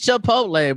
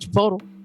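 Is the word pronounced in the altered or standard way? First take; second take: standard; altered. First: The word has its usual standard pronunciation. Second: The word has a jokingly altered pronunciation. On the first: "I know it's Chipotle" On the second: "sometimes you just gotta call it Chipotle"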